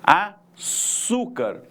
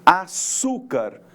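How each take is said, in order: First: Slow açúcar with the cú raised and stretched; stress on açúcar. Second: Açúcar slow, with the syllable cú stretched and loud; stress on açúcar. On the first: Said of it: "Olha só a sílaba tônica aparecendo pra vocês". (açúcar bem devagar, destacando o cú) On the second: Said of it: "Qual que é a sílaba que foi pronunciada mais, com maior intensidade?". (açúcar lento, com ênfase forte no cú) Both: Shown as a demonstration.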